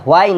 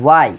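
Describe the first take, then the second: First: "why" said as "hwain", h before the w; mistaken h pronunciation. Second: "why" said as "wai", straight on w; W without h. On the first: Teacher rejects this form for students, mistaken h pronunciation. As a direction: open "why" on an added h. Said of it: "এটা why না". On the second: Teacher gives students the real form, w without h. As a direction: push the w of "why", no h. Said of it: "এটা why". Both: Shown as a demonstration.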